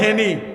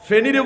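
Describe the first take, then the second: First: It starts with an h sound, Feni dialect. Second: It starts with a p/f sound, standard Bengali.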